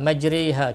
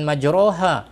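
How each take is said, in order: First: The second syllable has an i-like vowel. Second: The second syllable has an o-like vowel. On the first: The speaker calls it right. "kita tak baca dengan majroha" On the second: The speaker calls it wrong. "semua kita baca dengan majroha"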